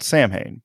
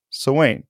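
First: Samhain said as SAM-hayn; spelling pronunciation. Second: Samhain said as so-WAYN; Gaelic pronunciation. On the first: Host explains the festival's spelling, Samhain read as SAM-hayn. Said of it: "spelled Samhain, but not pronounced Samhain". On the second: Host names the ancient pagan festival, Gaelic pronunciation. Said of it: "but not pronounced Samhain". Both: Shown as a demonstration.

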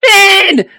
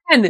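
First: Sharp, much higher and louder shout of the name; calling out loud. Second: Said in the usual way. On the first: Real, not acted. GM shouting for a player who went silent, loud call. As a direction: yell the name to wake him up.

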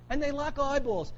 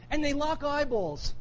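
First: Said in the usual way. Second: "And they lock eyeballs" drawn out slowly and deliberately; slow emphasis. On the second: Shown as a demonstration. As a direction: linger on each word.

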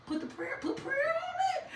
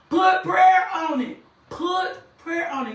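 First: Very high, squeezed little voice; strained high squeal. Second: High, loud, slow exhortation; preaching shout. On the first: Preacher urging listeners facing adversity, strained high squeal. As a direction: squeal it, holding back the volume. Hushed squeal before the full shout. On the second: Preacher urging listeners facing adversity, loud slow shout. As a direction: shout it out slowly, each word driven home. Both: Real, not acted.

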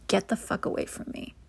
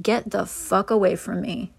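First: Whispered retort. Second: Said in the usual way. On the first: Retold or imitated. Repeat of the women's retort.

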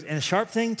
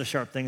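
First: Put-on childlike voice set higher, eager rising question; an excited little boy wondering; imitating three-year-old son. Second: Said in the usual way. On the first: Son quizzing dad about the knife, higher childlike eagerness. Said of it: "He goes". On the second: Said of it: "I said".

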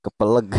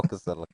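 First: Kepeleg said as ke-pe-leg, with a p and a final g; mispronounced word. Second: Keselek said properly as ke-se-lek, with s and a final k; corrected pronunciation. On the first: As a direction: say Kepeleg with p where keselek has s, ending in g. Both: Real, not acted. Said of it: "Keselek tuh, Pak".

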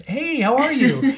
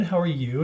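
First: Higher, louder bubbly phone hello; enthusiastic greeting. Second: Said in the usual way. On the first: Retold or imitated. Teller acts out greeting a caller she mistakes for a friend, enthusiastic. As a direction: greet a friend with a big upward swoop.

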